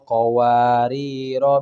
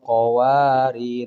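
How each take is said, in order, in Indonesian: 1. Kata ini berakhir dengan vokal pendek sebelum kata berikutnya. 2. Kata ini berakhir pada konsonan tanpa vokal. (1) "Langsung qawariro min fiddatin" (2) "di sini disukunkan"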